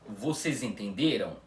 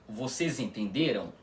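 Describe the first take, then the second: Both takes have the same delivery.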